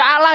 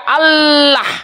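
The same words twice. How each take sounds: First: The L sound is short and single. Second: The L sound is long and doubled. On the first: It is the word meaning a curse. The speaker calls it wrong. "tidak Allah dia" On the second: It is the name of God. The speaker calls it right. "Kalau di L-nya dua"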